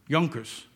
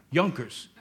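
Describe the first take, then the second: First: Yonkers said with a U sound, YUN-kers. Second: Yonkers said with a U sound, YUN-kers; Yonkers said right. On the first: Pastor showing his hometown how to say Yonkers, with a U. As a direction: say Yonkers the local way, with a U. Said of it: "we say Yonkers with a U". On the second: Pastor telling the congregation to say Yonkers right. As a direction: say Yonkers the local way, with a U, firmly. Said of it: "say it right". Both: Shown as a demonstration.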